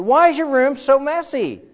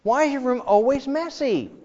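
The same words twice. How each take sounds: First: High, loud exasperated nag; nagging mom. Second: Nagging mom. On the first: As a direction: scold like a fed-up mom. Mom nagging the neat kid. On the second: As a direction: nag like a fed-up mom. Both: Retold or imitated.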